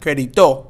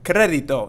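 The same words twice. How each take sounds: First: The stress falls on a later syllable. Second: The stress falls on the first syllable. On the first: The speaker calls it wrong. "and not" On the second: The speaker calls it right. "we're going to make sure that we stress the E here"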